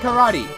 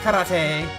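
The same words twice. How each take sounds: First: Karate is said with an American English pronunciation. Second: Karate is said with a non-American pronunciation. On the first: This is how English speakers say it casually. "They say karate. That's how it's pronounced in American English" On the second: This is the formally correct pronunciation. "I know it's pronounced karate"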